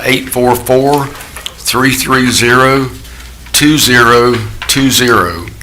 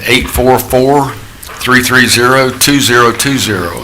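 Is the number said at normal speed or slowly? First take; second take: slowly; normal. First: The number is said more slowly. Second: The number is said at normal speed.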